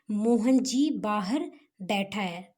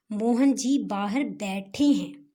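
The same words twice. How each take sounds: First: Said in the usual way. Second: बैठे हैं said slowly and clearly as the correct form; slow clear model sentence stressing बैठे हैं; correct form stressed. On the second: Shown as a demonstration. (बैठे हैं को धीरे और साफ़ बोलें) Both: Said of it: "तो ऐसा गलत है".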